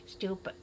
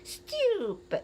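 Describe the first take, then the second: First: The word is said short and plain. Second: The word is drawn out with exaggerated feeling. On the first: The opinion is simply voiced. "so you just say stupid" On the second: The speaker wants to get the listener's attention without anger. "You try to uh, uh, linger it. You try to um, put more emphasis"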